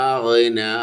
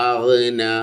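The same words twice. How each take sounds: No difference in how they are said.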